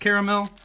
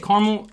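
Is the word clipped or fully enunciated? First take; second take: fully enunciated; clipped. First: The word is fully enunciated, every sound said. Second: The word is clipped, with sounds dropped. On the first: This is the proper pronunciation. "I know it's caramel" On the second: This is how people from the Midwest say it. "I say caramel. ... I'm from the Midwest, and we don't believe in properly enunciating everything"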